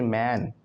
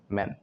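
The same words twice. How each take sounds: First: मैन with a long, open a as in man; open A vowel. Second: मैन with a short e as in men; short E vowel. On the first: Teacher contrasts e and a, drawn-out open vowel. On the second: Teacher contrasts e and a, short e vowel. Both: Shown as a demonstration. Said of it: "ई और ए से difference हो गया".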